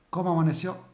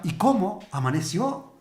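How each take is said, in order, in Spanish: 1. Suena a un saludo amistoso y normal. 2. Suena sorprendido e incrédulo. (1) "entro y lo saludo y le digo buenos días" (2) "¿cómo todavía está vivo?"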